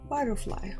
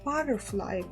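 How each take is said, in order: First: The word is said softly and smoothly. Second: The word is said in a harsh, angry way.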